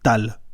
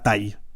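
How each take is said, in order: First: The name ends with a clear L sound. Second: The name ends with a Y-like glide sound. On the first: The speaker calls it right. "Ça se prononce comme ça. Tal" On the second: The speaker calls it wrong. "pas taille"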